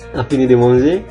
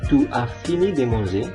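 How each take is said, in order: First: Tu is shortened and joined to as. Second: Tu and as are said as separate words. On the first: It is casual spoken French. "dalam percakapan biasanya ... kita sering menggabungkan" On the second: It is the standard full form. "ini harusnya"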